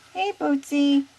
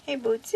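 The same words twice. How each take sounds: First: Higher, louder call to the parrot; loud coaxing call. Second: Said in the usual way. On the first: Shown as a demonstration. Owner calling her parrot to repeat, higher and louder. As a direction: call it out for the bird to copy. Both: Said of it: "calling to the bird".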